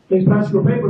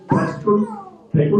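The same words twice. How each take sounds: First: Said in the usual way. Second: Very high, slow put-on voice; acted bagger's question. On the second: Young bagger asking a customer the typical question, high and slow.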